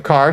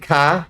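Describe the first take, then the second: First: Said in the usual way. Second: "ka" for car, ending on an open vowel; dropped R. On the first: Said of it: "instead of". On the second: Retold or imitated. Reading about a grandma's old Southern speech, R-less "ka". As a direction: say "ka" with no R at the end. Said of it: "She often dropped R's".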